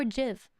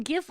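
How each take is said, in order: First: "jiv" starting with a j sound, like jiff. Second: "gif" with a hard g as in gift. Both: Shown as a demonstration. Asks hard or soft g.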